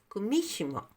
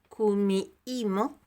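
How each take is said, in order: First: It is said Japanese style, middle consonant sounded. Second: It is said Spanish style with a silent h. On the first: This is how Japanese speakers say it. "Así es como lo pronunciarían en japonés" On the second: This is how Spanish speakers say it. "En español diríamos kumiimo, porque la H es muda"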